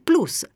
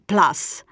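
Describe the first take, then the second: First: It is pronounced with Italian, Latin-style sounds. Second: It is pronounced with English-style sounds. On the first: The speaker calls it right. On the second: The speaker calls it wrong.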